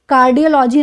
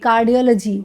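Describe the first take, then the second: First: The ending has a full 'lo' vowel. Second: The ending has a reduced 'luh' vowel. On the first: The speaker calls it wrong. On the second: The speaker calls it right.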